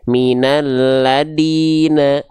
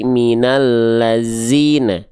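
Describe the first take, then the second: First: The consonant before -ina is a plain d. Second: The consonant before -ina is a buzzing z. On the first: "jangan sampai kayak huruf dal" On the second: "Dibacanya jangan jadi minallazina ... bukan zai"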